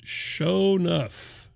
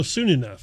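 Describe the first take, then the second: First: "Show Enough" with show as in show, drawn out slowly; "Show" said like the word show, very slow; wrong name read out. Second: "Soon Enough" with soon rhyming with moon; "Soon" said clearly as the word soon; corrected name. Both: Shown as a demonstration. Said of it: "Soon, no".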